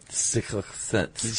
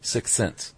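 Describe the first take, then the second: First: The words are pronounced slurred, like an impediment. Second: The words are pronounced clearly and normally.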